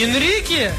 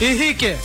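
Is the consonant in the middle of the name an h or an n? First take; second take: n; h. First: The middle consonant is an n sound. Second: The middle consonant is an h sound.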